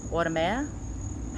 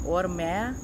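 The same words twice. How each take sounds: First: "Audomer" drawn out slowly, syllable by syllable, with a rising end; careful sounding out. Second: Said in the usual way. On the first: Real, not acted. Vlogger sounding out a French maker's name, slow and careful. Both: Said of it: "I can never pronounce French very well".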